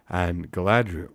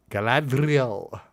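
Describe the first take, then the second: First: Said in the usual way. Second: "Galadriel" high and slow with a trilled R; rolled R. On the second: Acted. Reader overdoing an elf accent, "Galadriel" with a rolled R. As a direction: roll the R hard in "Galadriel". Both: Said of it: "why am I rolling my tongue?".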